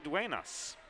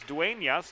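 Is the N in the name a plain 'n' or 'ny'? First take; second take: n; ny. First: The n is said as a plain n sound. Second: The n is said as 'ny', like Spanish ñ. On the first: The speaker calls it wrong. "not Duenas" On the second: The speaker calls it right. "there is a tilde over the N. It is Duenas"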